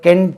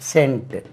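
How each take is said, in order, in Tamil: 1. இந்த வார்த்தை k ஒலியில் தொடங்குகிறது. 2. இந்த வார்த்தை s ஒலியில் தொடங்குகிறது. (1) "நம்ம கென்ட் என்று சொல்லுவோம்" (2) "ஒரு இடத்துல இது சா என்று உச்சரிக்கிறது"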